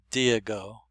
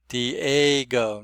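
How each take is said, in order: First: "Diego" as dee-EE-go, no A sound in the middle; "Diego" said the way the program says it, first vowel stretched; Excel program's Diego. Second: "Diego" as dee-AY-go, stress on the AY; "Diego" with a clear long A sound, that syllable leaned on; proper Diego. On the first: Correcting the computer voice, saying its version of Diego plainly. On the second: Teacher showing students the proper way to say Diego. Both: Shown as a demonstration. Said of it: "the proper way to say that word is Diego".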